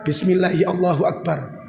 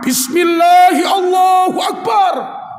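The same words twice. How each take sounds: First: It is said softly, with little voice. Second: It is said loudly, with great energy. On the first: The pilgrim starts calmly without raising the voice. "tidak ada suaranya" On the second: The pilgrim starts with enthusiasm.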